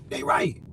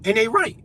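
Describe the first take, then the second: First: Hushed, breathy repeat of the point; whispered echo. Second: Said in the usual way. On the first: Real, not acted. Ranting to the government, then a whispered aside. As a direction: drop to a whisper to drive it home.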